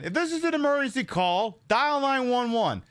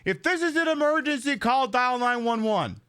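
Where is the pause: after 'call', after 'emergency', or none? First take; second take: after call; none. First: The pause comes right after the word call. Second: The whole line runs together with no pause. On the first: The speaker calls it right. "There's a pause. You take a beat" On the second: The speaker calls it wrong. "if I literally just say"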